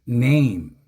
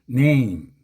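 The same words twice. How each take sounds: Both takes have the same delivery.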